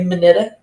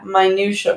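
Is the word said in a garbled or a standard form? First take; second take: garbled; standard. First: The word is said in a garbled form. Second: The word is said in its standard form. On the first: The speaker calls it wrong. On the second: The speaker calls it right.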